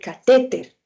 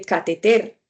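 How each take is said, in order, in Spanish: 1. El acento cae en la sílaba del medio. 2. El acento cae en la última sílaba. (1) "uno dice" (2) "uno no dice"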